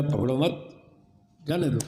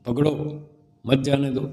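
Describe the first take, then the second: First: पकड़ो मत run together, pause, then जाने दो; pause after मत. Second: पकड़ो by itself, break, then मत जाने दो as one phrase; pause after पकड़ो. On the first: Constable's mistaken understanding of the order, pause after मत. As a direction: join मत to पकड़ो, break before जाने दो. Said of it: "सिपाही ने क्या समझा". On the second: What the jailer really said, pause after पकड़ो. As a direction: split it right after पकड़ो, before मत. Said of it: "बोला तो ये था". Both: Shown as a demonstration.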